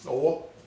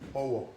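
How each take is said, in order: First: It carries the tone pattern meaning hand. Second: It carries the tone pattern meaning broom. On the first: It means a hand. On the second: It means a broom.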